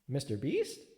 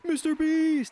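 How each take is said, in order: First: It sounds like a plain question. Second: It sounds like an emphatic exclamation.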